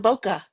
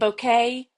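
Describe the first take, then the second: First: It is said differently from the flower word bouquet. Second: It is said like the flower word bouquet. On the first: "And I think there's also bokeh" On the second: "You could say it bouquet, kind of like the word bouquet"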